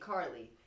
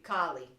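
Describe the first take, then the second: First: It is said in a general accent. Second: It is said in a New York accent.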